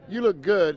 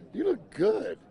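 First: It is said plainly, with no surprise. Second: It is said with clear surprise in the voice.

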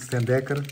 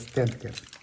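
First: An extra vowel makes the name three syllables. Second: No extra vowel, so the name has two syllables. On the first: This is how people in Portugal usually say it. The speaker calls it wrong. "Em Portugal nós dizemos muito Stendecker" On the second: This is the proper form of the name. The speaker calls it right. "a forma correta de dizer é Stendcare"

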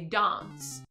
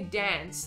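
First: The word is said in a more British-sounding way. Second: The word is said in a less British-sounding way. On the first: This is how people in Adelaide say it. "they speak a bit more almost British-ish? ... they say dance" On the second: This is how other Australians say it. "they don't say dance"

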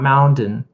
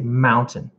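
First: The middle consonant is a D sound. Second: The middle consonant is a T sound. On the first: The speaker calls it wrong. "not mountain. No D there" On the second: The speaker calls it right. "So that I would say mountain"

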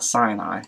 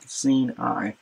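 First: The first syllable sounds like 'sigh'. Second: The first syllable sounds like 'see'. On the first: The speaker calls it wrong. "not Sinai, as we're common to pronounce it in English" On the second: The speaker calls it right. "like an S-I-N, Sin, or S-E-E-N, Sin, and E-Y-E, like Sinai"

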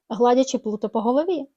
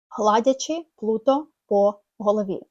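First: The words are glued together in one flow. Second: The words are spoken separately, one by one. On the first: The speaker calls it right. "Ми теж клеїмо слова" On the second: The speaker calls it wrong. "Ми ж не кажемо"

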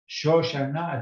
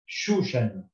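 First: The first vowel is an o sound. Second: The first vowel is a u sound. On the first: The speaker calls it right. "you are allowed to read it as Shoshana" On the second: The speaker calls it wrong. "and not Shushana"

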